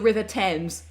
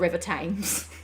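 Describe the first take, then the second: First: It is said in a British accent. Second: It is said in an American accent. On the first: The speaker calls it right. "I definitely want to hear" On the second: The speaker calls it wrong. "and not the River Thames"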